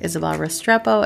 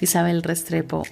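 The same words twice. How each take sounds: First: The name is said with American English pronunciation. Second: The name is said with Spanish pronunciation.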